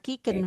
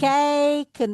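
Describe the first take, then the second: First: The first vowel is a plain 'ee' sound. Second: The first vowel glides like a diphthong. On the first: The speaker calls it wrong. "bukan kiken" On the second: The speaker calls it right. "Wij kijken"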